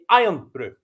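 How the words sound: The stress falls on the first word. The speaker calls it wrong. "there's an accent on the iron, you'd say Iron Brew"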